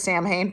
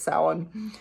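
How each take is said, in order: First: It is read the way it is spelled. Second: It is said with the traditional pronunciation. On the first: This is how it was said before learning better. The speaker calls it wrong. "I read it and spoke it as Samhain for four decades" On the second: This is the pronunciation learned recently. The speaker calls it right. "I like recently learned it's Samhain"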